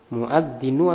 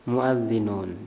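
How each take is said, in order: First: The word ends on a vowel sound. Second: The word ends with an n sound. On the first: The speaker calls it wrong. "Muadzinu atau muadzinun?" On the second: The speaker calls it right. "Muadzinun ya"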